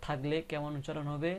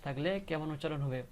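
No difference in how they are said.

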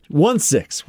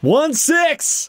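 First: Said in the usual way. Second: Much higher, rising cry; real exclamation. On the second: Real, not acted. Player repeats her dice roll to the table, exclaiming. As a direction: squeal the result, pitch leaping up.

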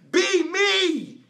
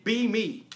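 First: Much higher, louder divine shout; God yelling at a stubborn believer, loud and high. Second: Said in the usual way. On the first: Retold or imitated. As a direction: bellow it like an angry God. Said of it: "he yelled at me and said". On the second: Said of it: "He said".

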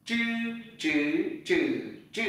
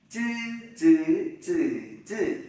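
First: "Chư" retroflex without air puff, through four tones; curled-tongue zh. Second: "Chư" as a dz-like ts without air puff, four tones; flat-tongue unaspirated z. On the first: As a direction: curl the tongue back on each "chư". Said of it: "Z H cuộn lưỡi lại". (đọc "chư" cuộn lưỡi, không bật hơi) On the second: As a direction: keep tongue straight on "chư", no burst. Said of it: "chữ Z thẳng lưỡi". (đọc "chư" thẳng lưỡi, không bật hơi) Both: Shown as a demonstration.

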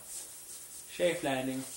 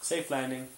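First: Stretched slow safe landing; slow drawn-out landing. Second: Said in the usual way. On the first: Pretend. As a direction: ease it down very slowly. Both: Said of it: "even though I made a crash sound".

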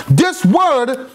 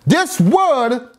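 The two takes are said the same way.

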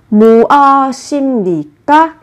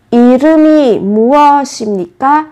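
First: 무엇입니까 said with the ㅂ softened to an M sound, im-ni-kka, syllables run together; Korean pronunciation. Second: 이름이 무엇입니까 with sounds linked, i-reu-mi mu-eo-sim-ni-kka, smooth and connected; linked pronunciation. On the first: Teacher models 무엇입니까 for Vietnamese learners, linking im sound clearly. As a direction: link the final consonant into the next syllable, 무엇입니까 as mu-eo-sim-ni-kka. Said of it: "các bạn chú ý về cách phát âm".

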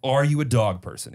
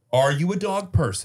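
First: Said in the usual way. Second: Dog person, with dog stressed. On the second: Shown as a demonstration. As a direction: lean on the word dog. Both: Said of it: "It's not a dog owner".

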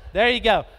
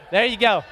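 Both takes have the same delivery.

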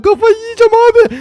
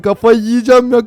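First: Higher, exasperated whine. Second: Said in the usual way. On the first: Real, not acted. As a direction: whine it, going crazy. Frustrated repeat, much higher.

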